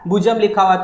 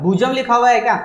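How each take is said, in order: First: Said in the usual way. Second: भुजम लिखा हुआ है क्या asked higher, as if questioning a wrong reading; teacher querying a student's misreading in disbelief; doubtful question. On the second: Shown as a demonstration. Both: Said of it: "sir ये तो भुजम लिखा हुआ है".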